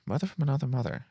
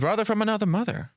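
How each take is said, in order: First: Said in the usual way. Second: High, delighted catchphrase echo; excited. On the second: Real, not acted. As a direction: sing it out high with glee. Echoing a friend's catchphrase.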